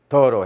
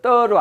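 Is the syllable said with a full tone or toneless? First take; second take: toneless; full tone. First: The syllable is said light, without a tone. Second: The syllable is said with a full tone. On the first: The speaker calls it right. "뒤로 갔을 때 발음의 성조가 없어져 버려요" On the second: The speaker calls it wrong. "떠로 안 하고"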